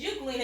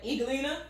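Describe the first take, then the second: First: Only the U vowel is sounded. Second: Only the E vowel is sounded. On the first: The speaker calls it right. "it says Euglena and the E is silent" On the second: The speaker calls it wrong. "You wouldn't hear the U or Eglena"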